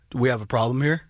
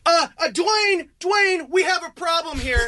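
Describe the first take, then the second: First: Low-pitched mock menace; confrontational husband. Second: High, drawn-out mock call for backup; wife calling husband. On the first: Husband two inches from his face, low confrontational challenge. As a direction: imitate a husband squaring up, voice dropped way down. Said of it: "gets two inches in my face and goes". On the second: Wife calls her husband over, high drawn-out complaint. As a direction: imitate her summoning him, slow and raised. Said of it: "she called her husband".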